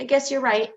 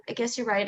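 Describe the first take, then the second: First: Said in the usual way. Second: Quieter, lower repeat of I guess you're right; mild hint of a doubting person conceding; softer, giving in. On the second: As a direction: trail off, defeated. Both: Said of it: "you do think it's".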